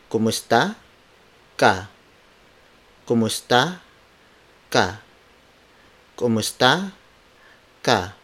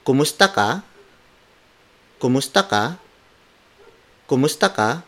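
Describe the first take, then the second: First: Kumusta and ka split by a clear pause; word for word. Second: Kumusta ka? said as one flowing question that rises on ka; question intonation. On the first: Teacher splitting the phrase for learners, word by word. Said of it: "word for word". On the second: Teacher modelling the question for learners, rising at the end. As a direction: run Kumusta ka together and lift the pitch at the end. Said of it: "let's bring it upwards towards the end". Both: Shown as a demonstration.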